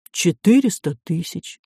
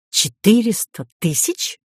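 First: Said in the usual way. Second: Suspicious echo, pitched higher as a question. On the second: A narrator's reading. Professor querying the price of the ticket, suspicious. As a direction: repeat the sum in open doubt, voice raised in pitch. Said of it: "Профессор не скрывал подозрений".

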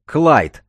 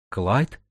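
First: Name shouted high and loud, falling; loud, high-pitched warning cry; sharp reprimand. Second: Name asked in surprise, rising at the end; lightly acted startled recognition; surprised. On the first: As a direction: cut him off with "Клайд!". Akulina cuts off her friend. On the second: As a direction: say "Клайд" as an astonished question. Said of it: "удивилась Акулина". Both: A narrator's reading.

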